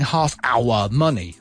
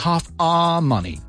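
First: The word 'our' is said in full form. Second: The word 'our' is said in reduced form. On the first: The speaker calls it wrong. "I'm not saying half our money" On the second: The speaker calls it right. "I'm saying half our money"

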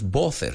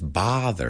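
First: The first vowel sounds like a rounded 'o'. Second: The first vowel sounds like an open 'a'. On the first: The speaker calls it wrong. "no es bother" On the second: The speaker calls it right. "es bother. Es como, suena como una A"

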